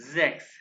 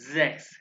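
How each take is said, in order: Both takes have the same delivery.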